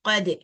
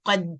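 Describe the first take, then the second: First: The final d is released with a light echo. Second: The final d stops abruptly without any bounce. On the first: The speaker calls it right. "அது இல்ல கது" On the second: The speaker calls it wrong. "அந்த கல்கலாவுடைய சவுண்ட குடுக்காமையே நிறுத்திடுறது"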